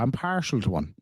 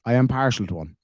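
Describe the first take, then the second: First: Said in the usual way. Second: "am" spelled out and leaned on, not contracted; stress on am. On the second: Shown as a demonstration. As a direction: insist with a firm "I am".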